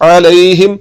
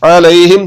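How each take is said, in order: Both takes have the same delivery.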